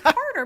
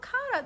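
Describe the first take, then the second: First: The name is said in a non-Australian accent. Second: The name is said in an Australian accent. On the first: The speaker calls it right. "his name is Carter" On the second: The speaker calls it wrong. "saying my kid's name in an Australian accent"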